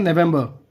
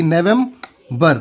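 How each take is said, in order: First: Said in the usual way. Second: "November" slowly, nevem... ber; broken into syllables. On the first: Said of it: "क्या बोलेंगे?". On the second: Shown as a demonstration. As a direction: pause before the last syllable of "November". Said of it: "तोड़ तोड़ के".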